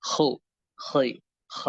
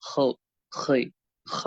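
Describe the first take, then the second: Both takes have the same delivery.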